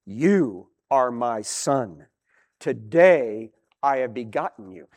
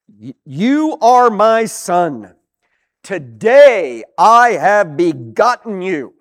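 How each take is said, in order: First: Voice of God. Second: Loud, slow, each word weighed; emphatic reading. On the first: Acted. God declaring to his son, low and solemn. God speaking within the psalm. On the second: Shown as a demonstration. Preacher reading the Psalm quote aloud, slow and loud. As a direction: proclaim it slowly to the congregation.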